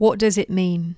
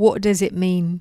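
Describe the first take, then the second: No difference in how they are said.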